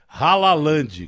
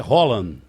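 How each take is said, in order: First: The name is said with three syllables, Ha-la-land. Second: The name is said with two syllables, Hol-land. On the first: The speaker calls it wrong. "tem gente chamando o cara de é, Halaland" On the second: The speaker calls it right. "Então o nome do cara é Holland"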